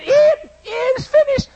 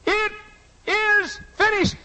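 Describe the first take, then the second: First: Mocking shout. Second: Said in the usual way. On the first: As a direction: shout his last words back at him in scorn. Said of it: "I actually mocked him and said".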